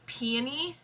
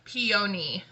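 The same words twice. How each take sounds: First: The middle O sound is reduced and barely heard. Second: The middle O sound is clearly and fully sounded. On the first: The speaker calls it wrong. "when I say it like that, it, so, it sounds like I'm saying peony" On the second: The speaker calls it right. "So I have to emphasize the O"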